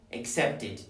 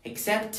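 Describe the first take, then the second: First: "accepted" as ac-cept-id, pitch dropping; "accepted" with a full final "id"; added -ed syllable. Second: Said in the usual way. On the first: Shown as a demonstration. Teacher drilling verbs in t, "accepted" said ac-cept-id. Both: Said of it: "todos los que terminen en t".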